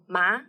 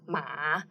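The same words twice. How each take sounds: First: The pitch rises from mid to high. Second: The pitch dips low and then rises. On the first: It means tingling or numb. "if we put second tone ma" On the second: It means horse. "which is the third tone, ma, which means horse"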